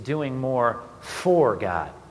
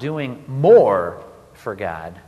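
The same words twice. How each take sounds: First: The stress is on the word for. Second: The stress is on the word more.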